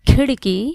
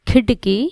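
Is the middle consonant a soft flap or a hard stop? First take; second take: flap; stop. First: The middle consonant is a soft tongue flap. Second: The middle consonant is a hard stop. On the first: The speaker calls it right. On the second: The speaker calls it wrong.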